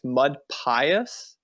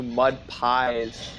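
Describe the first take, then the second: First: "Pious" in two syllables, PIE-us; "Pious" said PIE-us, with a questioning rise; correct name pronunciation. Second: "Pies" as one syllable, PIZE; "Pies" rhyming with "eyes"; mistaken name pronunciation. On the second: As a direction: say "Pies" like the dessert, ending in a Z. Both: Shown as a demonstration. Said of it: "I've been calling you Mud Pies".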